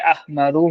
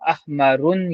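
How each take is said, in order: First: The word ends in a plain u vowel. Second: The word ends in an added n sound. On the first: The speaker calls it right. "ये अहमरू होगा" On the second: The speaker calls it wrong. "ऐसे नहीं पढ़ेंगे आप"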